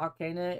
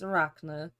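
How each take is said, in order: First: The name is said as 'ar-CAH-na'. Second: The name is said as 'a-RACK-na'. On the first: The speaker calls it wrong. "I always say Arcana, and it's not Arcana" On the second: The speaker calls it right. "it's Arachna"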